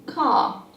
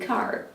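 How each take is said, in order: First: The final R is dropped. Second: The final R is clearly pronounced. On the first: "In British English, by contrast, that would be car" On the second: "American is a rhotic language, meaning that you hear the R's"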